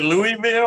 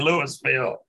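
First: "Louisville" said LOO-ee-vill, no s; quoted first option. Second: "Louisville" said LOO-iss-vill, s sounded; quoted second option. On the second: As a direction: say "Louisville" keeping the middle s. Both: Retold or imitated. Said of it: "that was an intentional screw up".

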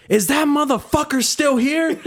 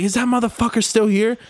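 First: High, slow mimicking of her voice; high and slow, imitating an angry woman; mock angry lady. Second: Higher-pitched imitation of her, a bit lighter; lightly voiced woman demanding; a touch of her high voice; mock angry lady. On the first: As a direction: play her as a high, drawn-out nag. Retelling angry woman asking about customer. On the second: Same quote retold again.

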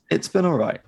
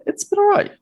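First: Said in the usual way. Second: Much higher, louder squeak; squeaky falsetto. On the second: Acted. Squeaky first take before plain.

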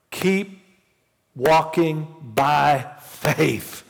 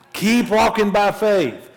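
First: Drawn-out, deliberate phrasing; slow and drawn out. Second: Higher, louder, urging; louder exhortation. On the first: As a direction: stretch each word, slow. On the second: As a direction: push it out to the congregation. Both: Shown as a demonstration.

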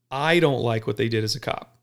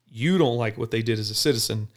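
First: I leaning on the word I; stress on I. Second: You leaning on the word You; stress on You. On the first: Officer contrasts his view with the citizen's, stressing I. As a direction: stress I against you. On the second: Officer contrasts the citizen's view with his, stressing You. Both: Shown as a demonstration.

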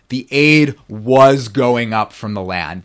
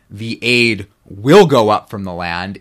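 First: Slow reading with WAS leaned on; stress on WAS. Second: Slow reading with WILL leaned on; stress on WILL. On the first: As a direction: punch "was" loud and drawn out. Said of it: "It means". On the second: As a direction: stretch and punch "will" as the wrong reading. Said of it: "So this doesn't mean". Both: Shown as a demonstration.

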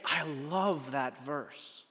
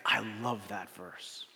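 First: Very slow, softly lingering; slow wonder. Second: Soft, slow, hushed awe; quiet awe. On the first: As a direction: savor each word like he did. Friend's line quoted again slowly. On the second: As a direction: breathe it like a treasured secret. Friend's quiet heartfelt quote. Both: Retold or imitated.

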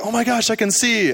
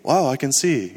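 First: High-pitched, excited exclamation; freaking out. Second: Mild, contained wow; understated freaking out. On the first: Woman retold as suddenly seeing after prayer, freaking out. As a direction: imitate someone freaking out with amazement. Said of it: "she started freaking out". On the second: Imitating the local version of freaking out, understated amazement. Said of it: "their version of freaking out is like". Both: Retold or imitated.

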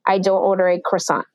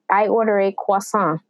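First: Croissant said kruh-SAHNT, English style. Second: Croissant said kwah-SAHN, French style. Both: Shown as a demonstration.

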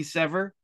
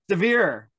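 First: "Sever" said as SEH-ver, two syllables, stress on the first; wrong name pronunciation. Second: "Severe" said like the word severe, stress on the last syllable; corrected pronunciation. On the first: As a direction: say "Sever" rhyming with clever. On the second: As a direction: repeat "Severe" as se-VEER after the correction. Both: Real, not acted. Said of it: "It's severe".

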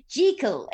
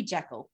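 First: "Jekyll" said JEE-kul, higher and louder; "Jekyll" pushed up, rhyming with treacle; weird film pronunciation. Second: "Jekyll" said JECK-ul, short e; "Jekyll" with a short first vowel, as in deck; proper pronunciation. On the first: Retold or imitated. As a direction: imitate the film's "Jekyll" with long ee, phony British. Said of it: "this weird way of going". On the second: Shown as a demonstration. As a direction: say "Jekyll" plainly, rhyming with freckle. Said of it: "it's gotta be Jekyll".

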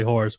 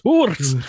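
First: Said in the usual way. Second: Scottish accent. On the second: Shown as a demonstration. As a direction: try saying it like a Scot.

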